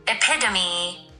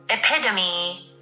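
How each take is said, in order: Both takes have the same delivery.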